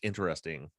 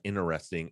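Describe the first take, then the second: First: The T after the N is pronounced. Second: The T after the N is dropped. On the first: The speaker calls it right. "it's interesting" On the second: The speaker calls it wrong. "not interesting"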